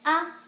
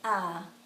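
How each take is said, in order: First: The vowel is short. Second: The vowel is long.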